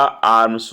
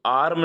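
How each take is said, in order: First: आर्म्स said with a final s; आर्म्स ending in ms; giving आर्म्स as the right answer; correct plural form. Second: आर्म said with no final s; आर्म ending on a bare m; marking आर्म as the wrong form; wrong singular form. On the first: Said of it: "आर्म्स होता". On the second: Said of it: "आर्म नहीं होता". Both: Shown as a demonstration.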